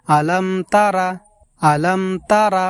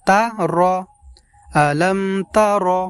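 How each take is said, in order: First: তারা with a long open final vowel, wrong; wrong pronunciation. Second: তারা said as তা র, short and clipped; correct pronunciation. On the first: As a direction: say আলাম তারা, stretching the last vowel. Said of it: "তারা বলা যাবে না". (ভুল উচ্চারণ: তারা টেনে) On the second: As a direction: say তা র, cutting the vowel short. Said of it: "আমাদেরকে বলতে হবে তা র". (শুদ্ধ উচ্চারণ: তা র ছোট করে) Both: Shown as a demonstration.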